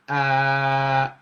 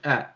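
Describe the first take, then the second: First: The vowel is drawn out longer. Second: The vowel is held only briefly. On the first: "the long vowel sound" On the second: "the short vowel sound"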